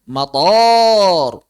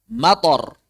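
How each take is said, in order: First: The vowel is said long. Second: The vowel is said short. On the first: It means airport. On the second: It means rain.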